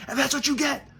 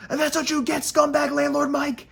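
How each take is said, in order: First: Sing-song gloating jab; gloating taunt. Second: High, loud mocking jeer; gloating taunt. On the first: Pretend. Taunting the landlord on the phone, gloating high. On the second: Jeering the scumbag landlord Mike, high and loud. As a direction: rub it in with a sneering sing-song.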